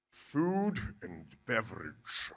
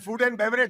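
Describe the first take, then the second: First: It is said in a put-on posh accent. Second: It is said in his natural accent. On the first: He is trying to impress. The speaker calls it wrong. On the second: He is being himself. The speaker calls it right.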